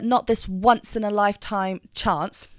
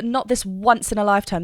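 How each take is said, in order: First: Once sung with a W onset and dark vowels; dark vowel demo. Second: Once said as wuns, W sound engaged. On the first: Coach demonstrating the dark vowel choice in the line. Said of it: "beautiful dark vowel choice". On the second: Coach showing the W sound on the word once. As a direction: stress the W in once for core connection. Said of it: "The once has a W". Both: Shown as a demonstration.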